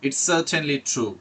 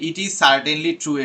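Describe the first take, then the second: First: The words 'it is' are contracted to 'it's'. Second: The words 'it is' are said in full. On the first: The speaker calls it right. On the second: The speaker calls it wrong.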